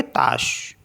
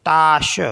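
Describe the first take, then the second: First: ताश with a short, clipped a; teacher contrasts the short a of ताश; short vowel tache. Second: ताश with a long, drawn-out aa; teacher shows the long a of ताश; long vowel tâche. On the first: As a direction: keep the a in ताश brief like French tache. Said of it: "तो short में बोला ना हमने ताश". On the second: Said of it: "long sound हो जाता है". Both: Shown as a demonstration.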